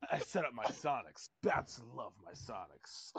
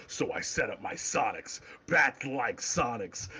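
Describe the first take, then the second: First: Softer, lower hammed-up Batman; corny Batman. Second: Lightly voiced brooding Batman; Batman quote. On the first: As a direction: read it as corny as possible. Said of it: "I just read it as super fucking corny". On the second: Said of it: "He's like".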